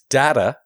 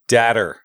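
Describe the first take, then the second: First: The word ends without an R sound. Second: The word ends with an R sound. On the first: The speaker calls it right. "But there's no R on the end of it" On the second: The speaker calls it wrong. "He said datter. ... There's an R on the end"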